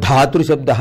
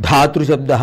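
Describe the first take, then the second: The two takes are said the same way.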